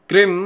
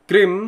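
Both takes have the same delivery.

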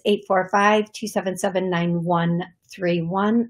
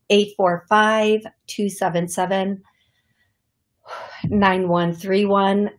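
First: The number is said fast. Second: The number is said slowly.

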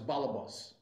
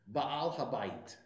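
First: It has Yiddish pronunciation ending in an S sound. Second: It has Hebrew pronunciation ending in a T sound. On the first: "Say that in Yiddish pronunciation, it becomes" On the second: "in Hebrew"

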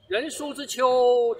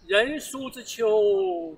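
First: The reading carries strong, continuous driving energy. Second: The reading is gentler and full of feeling. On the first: An inner force runs through the words. "这里面有一个力量在贯穿它" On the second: Imagination and emotion are present. "你再文清一点"

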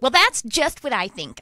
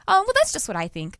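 First: The tone is curt, defensive and harsh. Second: The tone is soft, warm and gentle. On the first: The speaker is dismissing the other person. "as opposed to" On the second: The speaker is kindly sharing an opinion. "trying to hear their tone as a loving way"

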